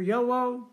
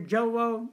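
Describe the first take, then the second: First: The word begins with a Y sound. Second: The word begins with a J sound. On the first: "for those who want to hear Yowo" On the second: "For those who want to hear Jowo"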